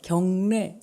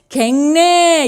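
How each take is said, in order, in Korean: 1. 첫 음절은 'gyeong'으로 발음해요. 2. 첫 음절은 'gaeng'으로 발음해요.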